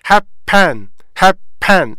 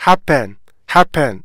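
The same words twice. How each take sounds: First: Happen in two separate, full syllables; deliberate happen, both syllables fully sounded; full careful form. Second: Happen with HAP stressed, pen light; native-style happen, weight up front and falling; correct front stress. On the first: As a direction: say hap, pen slowly with a clear 에. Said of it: "이렇게 발음해야 되는데". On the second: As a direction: say HAP-pen with a weakened 에 ending. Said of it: "강사를 지키면서 발음하자". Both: Shown as a demonstration.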